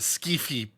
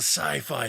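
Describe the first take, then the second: First: The word is said as 'skee-fee'. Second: The word is said as 'sigh-fie'. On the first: The speaker calls it wrong. "Why was I trying to pronounce that skeefy" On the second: The speaker calls it right. "Okay, it's the sci-fi pistol"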